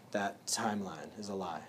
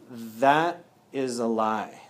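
First: Quieter follow-up, falling on lie; quiet restatement; softer repeat. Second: Slow, weighty stress on That; firm declaration; slow emphatic denial. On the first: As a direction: drop "That timeline is a lie" much softer. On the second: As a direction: lay down "That is a lie" slowly, word by word. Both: Shown as a demonstration.

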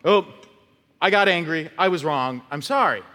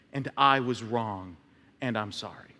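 First: Quick, offhand sorry; a careless apology that shrugs the wrong away; breezy token apology. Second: Mean every word, quietly; a quiet, humble apology that truly owns it; sincere apology. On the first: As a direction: toss it off like it costs nothing. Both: Shown as a demonstration. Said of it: "I'm not just gonna go".

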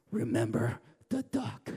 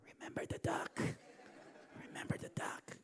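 First: Low, teasing threat; sly reminder. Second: Whispered threat. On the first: Bossy sister taunting her brother with a quiet threat. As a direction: lean on it like a little blackmailer. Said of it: "she says". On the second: Sister whispering a menacing reminder to Tim, whispered. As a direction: hiss it softly, almost silent. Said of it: "she'd go". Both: Retold or imitated.

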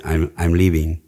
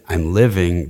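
First: LIVING said as "leeving"; Spanish-accented pronunciation. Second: Said in the usual way. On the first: Shown as a demonstration. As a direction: say "living" with a long Spanish ee, sounding like "leaving". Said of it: "they might say". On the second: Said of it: "if I said".

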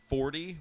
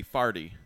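First: Said in the usual way. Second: "farty" with AR in place of OR; St. Louis pronunciation. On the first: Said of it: "swapping the A R sound for". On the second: Shown as a demonstration. Host demonstrating St. Louis accent, "farty" with AR vowel. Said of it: "forty would be farty".

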